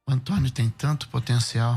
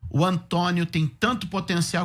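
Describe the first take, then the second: First: It is said in a disappointed, frustrated tone. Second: It is said in an admiring, hopeful tone. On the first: He has things to offer but does not deliver them. "eu posso usar a mesma frase com outro tom" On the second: He has good things to offer. "Que ele tem coisa boa para oferecer"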